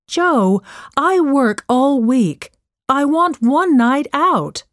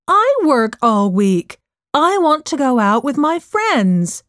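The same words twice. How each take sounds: First: Higher, insistent arguing voice; exasperated mother. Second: Raised, higher-pitched arguing voice; indignant retort. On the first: Working mom wants a night out, mildly exasperated. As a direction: argue your case, mildly exasperated. Acted quarrel, mother answers her daughter. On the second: Daughter turns mom's argument back on her, indignant retort. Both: Acted.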